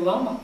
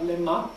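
First: The first vowel is an 'a' sound. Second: The first vowel is an 'e' sound. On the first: The speaker calls it wrong. "не «лама»" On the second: The speaker calls it right. "а «лема»"

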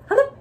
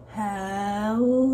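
First: It is said fast. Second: It is said slowly.

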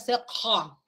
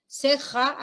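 First: The j sound is made further back. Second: The j sound is made further forward. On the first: "acá sería ceja, ¿ya? Más posterior" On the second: "Si aquí decimos ceja"

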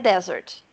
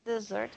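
First: The stress is on the first syllable. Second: The stress is on the second syllable. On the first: It is the noun for a dry sandy region. "Desert, substantivo" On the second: It is the verb meaning to abandon. "isso aqui é o verbo desertar"

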